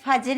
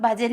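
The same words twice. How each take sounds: First: The word begins with an 'f' sound. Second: The word begins with an aspirated 'bh' sound. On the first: The speaker calls it wrong. "ഭ എന്ന് പറയുന്നതിന് പകരം ഫ എന്ന് പറയും" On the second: The speaker calls it right. "ഭജന എന്ന് പറയുന്നതിന് പകരം"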